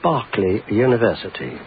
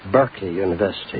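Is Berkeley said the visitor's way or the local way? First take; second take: visitor's way; local way. First: Berkeley is said in the speaker's own accent. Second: Berkeley is said the way locals say it. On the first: The speaker calls it wrong. "the one I always make the mistake of over here" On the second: The speaker calls it right. "which you call Berkeley University"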